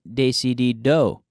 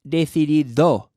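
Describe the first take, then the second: First: The final D is made with the tongue further back. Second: The final D is made with the tongue between the teeth. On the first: The speaker calls it wrong. "with an English accent" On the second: The speaker calls it right. "because your tongue comes out between your teeth on that D"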